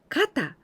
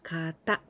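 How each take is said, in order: First: The second syllable is not high in pitch. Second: The second syllable is high in pitch.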